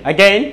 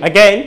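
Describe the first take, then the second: The two takes are said the same way.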